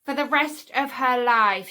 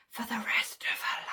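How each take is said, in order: First: Said in the usual way. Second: Pointed stage whisper; whispered relish. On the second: Real, not acted. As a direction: whisper it for dramatic effect. Savours villain's sentence, repeated whispered.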